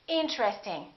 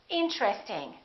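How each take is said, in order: First: A vowel is dropped, joining T and R. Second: A vowel is dropped, joining T and R.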